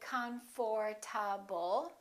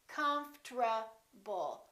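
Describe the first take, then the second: First: The o is pronounced and r precedes t. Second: The o is dropped and t precedes r. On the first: The speaker calls it wrong. "We don't say comfortable" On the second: The speaker calls it right. "The O disappears, ... the R T becomes a T R"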